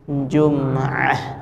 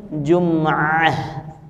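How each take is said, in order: No difference in how they are said.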